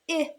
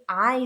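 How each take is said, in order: First: The vowel sounds like the one in slid. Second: The vowel sounds like the one in slide. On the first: The speaker calls it wrong. "not an I sound" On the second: The speaker calls it right. "It's an I sound, because that silent E was at the end"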